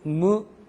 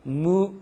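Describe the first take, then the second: First: The vowel is halfway between eu and u. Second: The same.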